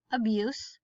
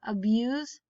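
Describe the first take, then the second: First: Abuse as uh-BYOOSS; soft s ending. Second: Abuse as uh-BYOOZ; buzzed z ending. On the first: Teacher reading word list aloud, soft s ending. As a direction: end Abuse on a hissed s. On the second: Teacher reading word list aloud, buzzed z ending. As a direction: end abuse on a voiced z. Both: Shown as a demonstration. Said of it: "both of the different pronunciations".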